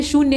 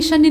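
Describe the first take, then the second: First: "शून्य" with a clear long oo; "शून्य" said right, long oo after sh; correct vowel. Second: "शन्य" said with a short a, as the misprint reads; "शन्य" with a short a and no long oo, the wrong form; wrong vowel. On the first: (सही उच्चारण "शून्य", लंबा ऊ) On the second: (गलत उच्चारण "शन्य", छोटा अ) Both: Shown as a demonstration. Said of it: "ये शन्य नहीं है".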